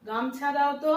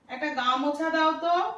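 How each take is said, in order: First: "গামছা" in two syllables, ম straight into ছ; everyday shortened pronunciation. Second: "গা মোছা" with the middle ও fully sounded, higher; full-vowel pronunciation. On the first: Teacher asking for a towel as we really say it, everyday shortened pronunciation. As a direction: drop the middle ও in "গামছা". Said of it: "কি বলি?". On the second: Teacher mock-asking for a towel as nobody says it, full-vowel pronunciation. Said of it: "বলি আমরা গা মোছা?". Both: Shown as a demonstration.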